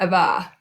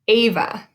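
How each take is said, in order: First: The stress is on the second syllable. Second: The stress is on the first syllable. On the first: The speaker calls it wrong. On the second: The speaker calls it right. "we say the first syllable just a little bit louder"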